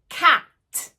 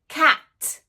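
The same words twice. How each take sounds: No difference in how they are said.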